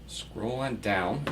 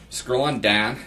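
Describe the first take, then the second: First: Said in the usual way. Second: "Scroll on down" in a Pittsburgh accent, a little louder. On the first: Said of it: "or as my Pittsburgh roots like to say". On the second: Shown as a demonstration. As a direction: say "Scroll on down" like a Pittsburgh local, with the "on" rising. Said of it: "That's the Pittsburgh accent".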